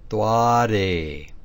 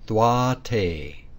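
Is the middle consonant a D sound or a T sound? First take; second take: D sound; T sound. First: The second syllable starts with a soft D sound. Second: The second syllable starts with a hard T sound. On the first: The speaker calls it right. "that T needs to be softened to a D" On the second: The speaker calls it wrong. "that's pronounced with a T sound"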